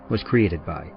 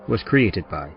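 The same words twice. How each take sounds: The two takes are said the same way.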